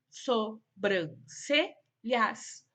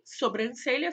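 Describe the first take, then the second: First: "sobrancelhas" slowly split so-bran-ce-lhas; syllable by syllable. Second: Said in the usual way. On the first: Shown as a demonstration. Teacher showing pupils syllable division, "sobrancelhas" in separated syllables. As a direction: pause after each syllable of "sobrancelhas". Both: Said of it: "foram separadas em sílabas".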